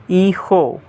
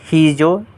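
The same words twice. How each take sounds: First: Hijo with silent h and breathy j, "EE-ho"; correct Spanish hijo. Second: Hijo with the h sounded and an English j, "hee-jo"; mispronounced hijo. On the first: Spanish teacher showing learners the right way, correctly pronounced hijo. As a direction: say hijo as "ee-ho", no English j. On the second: Spanish teacher warning learners how not to say it, mispronounced hijo. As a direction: say hijo wrongly as "hee-jo", hard j. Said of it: "friends, not hijo". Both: Shown as a demonstration.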